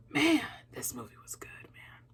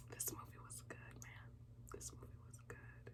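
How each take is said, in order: First: Soft whispered awe. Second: Very faint fading whisper. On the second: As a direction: let it fade to a whisper. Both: Real, not acted. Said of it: "I feel like a proud sister".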